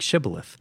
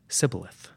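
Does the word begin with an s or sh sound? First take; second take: sh; s. First: The word begins with an sh sound. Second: The word begins with an s sound. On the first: It marks the speaker as one of the locals. "the Gileadites pronounced it with a sh sound" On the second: It marks the speaker as a fleeing outsider. "the Ephraimites pronounced it with a s"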